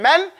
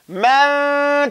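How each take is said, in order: First: The n sound is fully and clearly pronounced. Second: The n sound is stretched as a hidden nasal. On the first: The speaker calls it wrong. "Instead of saying man" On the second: The speaker calls it right. "So I'm just stretching it out, not really pr- pronouncing it"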